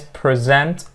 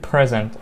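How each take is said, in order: First: The stress is on the second syllable. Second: The stress is on the first syllable. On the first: It is used as a verb. "so it's the second syllable that we are gonna stress on" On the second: It is used as a noun. "Two syllable words, those are the stress on the first syllable"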